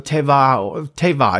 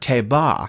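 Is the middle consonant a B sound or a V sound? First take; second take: V; B. First: The middle consonant is a V sound. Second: The middle consonant is a B sound. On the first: The speaker calls it right. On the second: The speaker calls it wrong.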